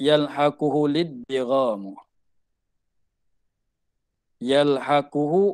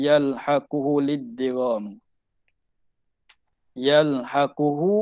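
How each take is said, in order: The two takes are said the same way.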